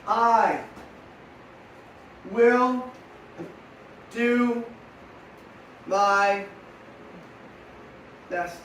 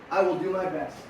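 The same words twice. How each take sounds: First: Each word spaced out for writing; measured dictation with long pauses; slow dictation. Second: Said in the usual way. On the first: Shown as a demonstration. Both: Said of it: "Ready to write it down?".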